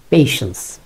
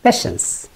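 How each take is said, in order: First: পেশেন্স said as "pay-shens"; পেশেন্স with an "e" vowel; correct patience. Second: প্যাশেন্স whispered high as "pa-shens"; mock the wrong প্যাশেন্স in a whisper; প্যাশেন্স with a flat "a"; wrong patience mocked. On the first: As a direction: say পেশেন্স clearly. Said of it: "যদি একটু পেশেন্স বলি". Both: Shown as a demonstration.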